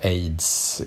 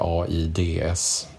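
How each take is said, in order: First: It is pronounced as a single ordinary word. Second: It is spoken as separate letter names. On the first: The speaker calls it right. "utläses också som vanliga ord, alltså vi säger AIDS" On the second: The speaker calls it wrong. "inte AIDS"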